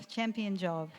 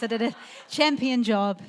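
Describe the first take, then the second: First: Said in the usual way. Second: Champion said loud, proud and emphatic; proud loud boast. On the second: Real, not acted. Mother boasting to wedding guests, loud and proud.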